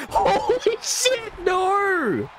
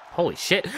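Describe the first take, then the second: First: High, slow, laughing holy shit; laughing disbelief. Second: Said in the usual way. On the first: Real, not acted. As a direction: let the laugh lift the words way up. Reacting to a surprise move.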